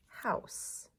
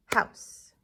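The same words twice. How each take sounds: First: Said in the usual way. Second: "House" as one loud, punchy beat; "House" hit hard as one syllable; single clapped syllable. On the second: Shown as a demonstration. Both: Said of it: "One syllable for house".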